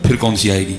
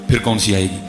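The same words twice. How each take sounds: The two takes are said the same way.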